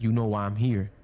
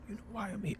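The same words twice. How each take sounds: First: Said in the usual way. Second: Hushed, whispered question; imitated whisper. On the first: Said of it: "he said more or less". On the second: Friend whispering to him in the darkness, whispered. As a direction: whisper it as he did. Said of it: "in a whisper".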